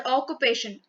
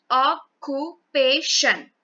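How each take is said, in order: First: Said in the usual way. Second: "Occupation" very slowly, broken into four syllables. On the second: Shown as a demonstration. Teacher showing how to syllabify the word, syllable by syllable. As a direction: say "Occupation" in separate beats, a gap after each syllable. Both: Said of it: "syllabify the word occupation".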